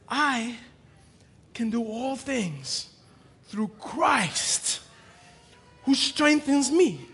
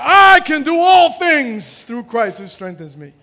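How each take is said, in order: First: The emphasis falls on the word Christ. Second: The emphasis falls on the word I. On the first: Christ is the source of the strength. The speaker calls it right. "No, it's" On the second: The speaker's own ability is the focus. The speaker calls it wrong. "We read this differently in the world. We say"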